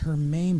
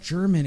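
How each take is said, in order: First: The name begins with an H sound. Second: The name begins with a J sound. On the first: The speaker calls it right. "It's Hermaine, bro" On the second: The speaker calls it wrong. "Why does he call it German?"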